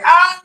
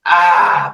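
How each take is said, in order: First: Very high mock scream of pain; cartoon pain yelp. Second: Mock "ahh" of relief at normal pitch; cartoon relief sigh. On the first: Retelling the hand leaving the water, mock agony. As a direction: jump up into a comic burnt-hand yelp. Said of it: "when I took it out, I was like". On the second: Retelling a burnt hand plunged in pond water, mock relief. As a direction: let out a soothed, drawn-out ahh. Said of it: "smoke came up, and I was like".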